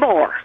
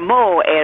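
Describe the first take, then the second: First: It is said in a standard, neutral accent. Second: It is said in a Southern US accent.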